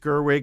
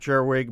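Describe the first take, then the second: First: The name starts with a hard G sound. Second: The name starts with a soft G sound. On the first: The speaker calls it right. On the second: The speaker calls it wrong.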